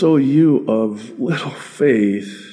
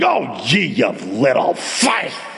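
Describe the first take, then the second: First: It sounds gentle and pitying. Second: It sounds scornful and disgusted. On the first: The listeners are pitied with love. The speaker calls it right. "No, it's" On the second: The listeners are being scolded and looked down on. The speaker calls it wrong. "Never imagine the Savior saying"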